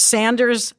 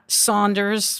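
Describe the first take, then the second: First: The first vowel sounds like the vowel in 'man'. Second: The first vowel sounds like the vowel in 'on'. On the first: The speaker calls it right. "it's Sanders" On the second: The speaker calls it wrong. "not Saunders"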